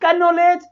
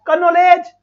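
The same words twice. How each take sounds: First: कनोलेज again with the k pronounced; k clearly sounded; wrong pronunciation repeated. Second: कनोलेज with the k sounded, "ka-no-ledge"; wrong way, k spoken; wrong pronunciation. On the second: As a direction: sound the silent k in कनोलेज on purpose. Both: Shown as a demonstration. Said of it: "इस word को हम ऐसे थोड़ी बोलेंगे".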